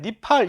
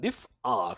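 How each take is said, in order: First: The syllables run together with no glottal break. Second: The middle has a glottal break between syllables. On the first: This is how it is said in modern Hebrew. "아인을 무궁화 처리하니까 니프알이 아니라 그냥 니팔" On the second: This is the original, precise form. "정확한 발음은 니프알입니다"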